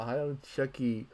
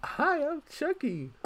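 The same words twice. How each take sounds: First: Said in the usual way. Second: High, slow creepy doll voice; squeaky talking doll, drawn out; Chucky doll voice. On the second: Retold or imitated. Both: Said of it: "the stupid doll voice".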